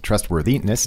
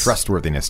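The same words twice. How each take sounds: First: The stress is on a later syllable. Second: The stress is on the first syllable. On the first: The speaker calls it wrong. "Not trustworthiness" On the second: The speaker calls it right. "The stress here goes on trust"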